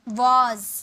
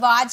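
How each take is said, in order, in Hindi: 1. स्वर गोल किया हुआ 'aw' है। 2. स्वर खुला और बिना गोल किया हुआ 'ah' है।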